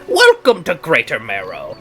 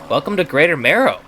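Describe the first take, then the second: First: It is said in a put-on character voice. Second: It is said in the speaker's own voice.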